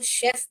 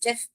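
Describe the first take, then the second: First: The word begins with a 'sh' sound. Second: The word begins with a 'ch' sound. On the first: The speaker calls it right. "बावर्ची को शेफ बोलते हैं बेटा, चेफ नहीं बोलते हैं।" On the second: The speaker calls it wrong. "ये बहुत लोग गलती करते हैं, इसको चेफ चेफ बोलते हैं।"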